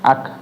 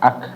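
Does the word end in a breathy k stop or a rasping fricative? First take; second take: breathy stop; breathy stop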